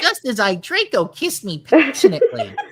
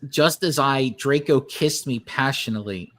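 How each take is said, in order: First: It is read in an imitation of Monokuma's voice. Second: It is read in the speaker's normal voice.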